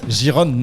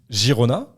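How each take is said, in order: First: The name ends in a short 'onne' sound. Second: The name is said with Spanish pronunciation. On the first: The speaker calls it wrong. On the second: The speaker calls it right. "à l'espagnol"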